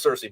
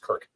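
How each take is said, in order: First: The name begins with a soft s sound. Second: The name begins with a hard k sound. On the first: This is the commonly adopted pronunciation. "everyone just decided, yeah, go with Cersei" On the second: This is the original ancient Greek pronunciation. "in Old Greek, it's Kirk"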